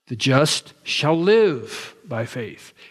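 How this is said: The stress is on "shall live".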